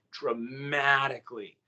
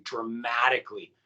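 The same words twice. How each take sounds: First: "dramatically" drawn out slowly on the stressed syllable; slow, weighty "dramatically"; emphatic repetition. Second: Said in the usual way. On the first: Real, not acted. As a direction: stretch "dramatically" for heavy emphasis. Repeats the word for emphasis.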